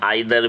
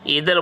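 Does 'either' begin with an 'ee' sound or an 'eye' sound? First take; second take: eye; ee. First: The word begins with an 'eye' sound. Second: The word begins with an 'ee' sound. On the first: "आइदर भी बोल सकते हैं" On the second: "ईदर बोल सकते हैं"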